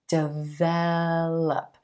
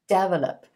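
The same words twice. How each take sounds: First: The stress is on the second syllable. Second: The stress is on the first syllable. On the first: The speaker calls it right. "with emphasis on the second syllable" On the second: The speaker calls it wrong. "with the emphasis on the first syllable"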